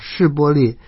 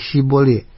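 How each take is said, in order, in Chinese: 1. 这个词以 'sh' 音开头。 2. 这个词以 's' 音开头。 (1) "是波列，说成西波列" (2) "以法莲人咬字不真，便说西波列"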